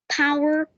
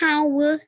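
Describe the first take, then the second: First: It is said in an American accent. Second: It is said in a British accent. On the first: "if an American says power" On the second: "if any British says the power"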